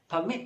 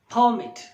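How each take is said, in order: First: The stress is on the second syllable. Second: The stress is on the first syllable. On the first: The word is used as a verb. "the stress would be on the second syllable" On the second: The word is used as a noun. "the stress would be on the first syllable"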